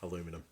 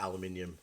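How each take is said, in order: First: It is said the American way. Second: It is said the non-American way.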